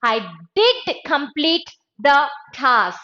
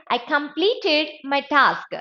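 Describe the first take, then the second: First: DID hit hard, then measured words; deliberate emphasis, DID standing out; stress on DID. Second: Said in the usual way. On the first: Shown as a demonstration. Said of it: "I wanted to add emphasis". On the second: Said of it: "You can simply say".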